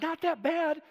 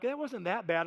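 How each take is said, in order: First: Indignant disbelief. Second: Said in the usual way. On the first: Retold or imitated. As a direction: throw the words back, incredulous and upset. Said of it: "I, I lost it". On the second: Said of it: "they're like".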